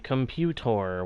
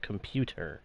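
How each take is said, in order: First: The word is said in an odd, jokey way. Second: The word is said in its ordinary way. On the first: It is a family in-joke. "We say computer" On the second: It is the normal way people say it. "it's normally said just computer"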